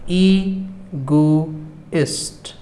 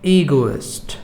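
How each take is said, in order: First: The word is said slowly. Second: The word is said fast. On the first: "मैं हर शब्द को दो बार धीमे धीमे बोलूँगा" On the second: "मैं हर शब्द को दो बार तेज़ी से बोलूँगा"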